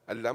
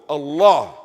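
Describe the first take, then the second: First: The word is said short and clipped. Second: The word is said fully with an open mouth. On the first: The speaker calls it wrong. "Allah mat bolo" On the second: The speaker calls it right. "Full mouth"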